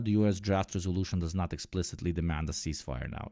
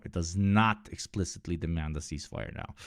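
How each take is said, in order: First: Said in the usual way. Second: Not pressed firmly, the rest even; stress on not. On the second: Real, not acted. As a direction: lean hard on not. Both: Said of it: "hence why we see the word immediate".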